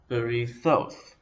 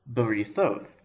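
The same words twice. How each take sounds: First: "berithoth" said slowly, stress on the final "thoth"; stress on last syllable. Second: Said in the usual way. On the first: Shown as a demonstration. Teacher showing where Hebrew stress falls, "berithoth" stressed on "thoth". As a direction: lean on "thoth" at the end of "berithoth". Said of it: "The stress is on the last syllable". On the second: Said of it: "So let's take the word".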